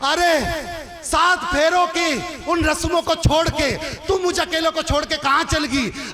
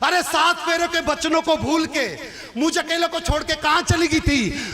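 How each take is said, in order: First: The crying line is said slowly. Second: The crying line is said fast.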